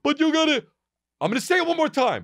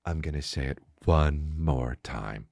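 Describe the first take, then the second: First: High-pitched angry outburst, mocking; lashing out. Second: Low, slow, soft and controlled; hypnotizing. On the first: Imitating guys lashing out at fans, high angry outburst. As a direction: act out losing your temper, voice jumping high. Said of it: "didn't lash out. So many guys would be like". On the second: Acted. Imitating him holding anger in, soft hypnotic voice. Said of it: "Like he's hypnotizing you".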